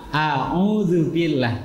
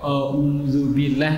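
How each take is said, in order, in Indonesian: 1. Vokal pertama ringan dan terbuka. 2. Vokal pertama berat dan membulat. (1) "Harusnya A"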